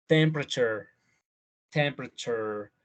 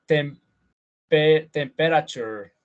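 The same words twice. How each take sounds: First: Temperature clipped to temp-ra-ture; three-syllable temperature. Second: All four syllables spelled out slowly; wrong full temperature. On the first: Teacher modeling the natural three-syllable temperature. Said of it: "Son tres". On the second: Teacher showing the wrong four-syllable temperature. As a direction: say temperature with every syllable, tem-pe-ra-ture. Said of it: "no vamos a decir". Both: Shown as a demonstration.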